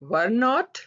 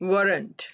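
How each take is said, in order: First: Two separate full words are said. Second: One shortened, contracted word is said. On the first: "were not"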